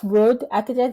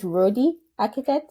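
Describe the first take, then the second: First: The first word is one syllable, like road. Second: The first word is two syllables, like roadie. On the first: The speaker calls it wrong. "it's not road architect" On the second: The speaker calls it right. "it's roadie architect?"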